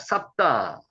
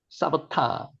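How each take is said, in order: First: The name is said with two syllables. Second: The name is said with three syllables.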